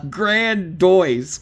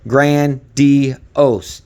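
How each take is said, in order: First: The ending sounds like 'doyz', as in noise. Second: The ending sounds like 'dee-ohs', as in dose. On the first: The speaker calls it wrong. "you're saying it wrong" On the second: The speaker calls it right. "pronounce it how I have it here"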